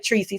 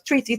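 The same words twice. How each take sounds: First: The word is pronounced clearly. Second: The word is pronounced with a slur. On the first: This is the word as it should be said. "she can't say Tracy" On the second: The person saying it is drunk. "so it's Tracy"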